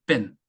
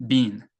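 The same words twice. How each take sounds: First: Been said as short "ben"; short vowel been. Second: Been said as long "been"; long vowel been. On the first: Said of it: "단모음". (been을 짧은 모음으로) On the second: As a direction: hold the ee in been. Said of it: "장모음". (been을 긴 모음으로) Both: Shown as a demonstration.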